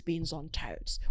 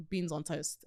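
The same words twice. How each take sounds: First: "beans on toast" slow, with careful consonants; crisply enunciated British. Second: Said in the usual way. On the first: Acted. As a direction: sound the final T of "toast" precisely. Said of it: "pronounce my T's". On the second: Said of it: "What's the Americans' problems with".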